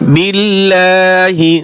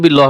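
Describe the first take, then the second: First: The word ends with a short final vowel. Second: The word ends on a consonant sound. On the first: The speaker calls it right. "বিল্লাহি হবে" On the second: The speaker calls it wrong. "বিল্লাহ হবে না"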